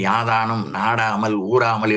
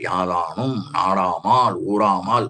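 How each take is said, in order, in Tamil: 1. இறுதி அசைகளில் குறில் உயிர்கள் உள்ளன. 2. இறுதி அசைகளில் நெடில் உயிர்கள் உள்ளன. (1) "என்று சொல்லுகிறார்கள். பொருள் போச்சு" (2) "மூன்று நெடில்ல வரும்"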